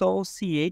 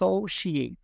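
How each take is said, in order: First: The middle consonant is an s sound. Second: The middle consonant is a sh sound. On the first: The speaker calls it wrong. "আপনি যেটাকে বলেছেন সোসিয়েট" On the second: The speaker calls it right. "এটা হবে সোশিয়েট"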